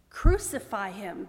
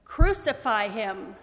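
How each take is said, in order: First: Loud, drawn-out narrated shout; crowd's shout. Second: Loud, slow insistent shout; louder crowd shout. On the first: Crowd demands crucifixion of Pilate, shouting. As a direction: call it out slowly and forcefully. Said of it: "they shouted". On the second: Crowd answers Pilate, shouting all the louder. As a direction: push the crowd's demand out even louder. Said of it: "they shouted all the louder". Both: A narrator's reading.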